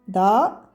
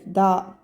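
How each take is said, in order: First: The vowel is short. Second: The vowel is drawn out long. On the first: "ça c'est da" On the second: "Si je fais da allongé, je vais ajouter alif"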